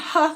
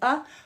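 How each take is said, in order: First: It begins with a breathy h sound. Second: It begins with a closed throat catch. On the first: The speaker calls it wrong. "We're not saying huh with an H in front of it" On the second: The speaker calls it right. "We're saying uh. From a closed to an open throat"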